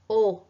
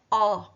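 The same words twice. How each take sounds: First: The vowel is pronounced closed. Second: The vowel is pronounced open. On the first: The speaker calls it right. "ele é fechado" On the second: The speaker calls it wrong. "Não é O"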